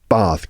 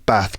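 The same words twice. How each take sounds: First: The vowel is a long open 'ah'. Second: The vowel is a short flat 'a'. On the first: "So I say" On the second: "with an R sound and not an A sound"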